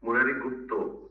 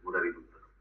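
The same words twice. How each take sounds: First: गुप्तो with a rounded Bengali "o" ending; Bengali form. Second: Murari गुप्ता with a Hindi "-ta" ending; Hindi form. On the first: Teacher corrects the name to Bengali गुप्तो. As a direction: end गुप्तो on "o", not "aa". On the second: Teacher first reads the name as गुप्ता. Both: Shown as a demonstration. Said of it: "Murari गुप्ता नहीं है".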